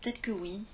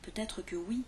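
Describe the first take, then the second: First: Peut-être is shortened, with sounds dropped. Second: Peut-être is pronounced distinctly, every sound included. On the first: "on entend beaucoup de Français dire" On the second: "Normalement, on prononce bien distinctement"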